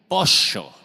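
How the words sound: It is said with an Argentine accent.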